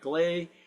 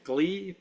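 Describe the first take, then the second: First: The vowel sounds like 'ay'. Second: The vowel sounds like 'ee'. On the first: "but gley" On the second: "Some people pronounce it glee"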